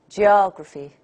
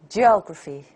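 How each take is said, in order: Both takes have the same delivery.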